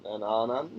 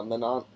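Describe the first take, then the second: First: "Mananan" in three syllables, MAN-an-an; careful three-beat "Mananan"; corrected name. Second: "Manon" said short, two syllables, MAN-on; clipped two-syllable "Manon"; mispronounced name. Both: Shown as a demonstration. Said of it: "ooh, Mananan".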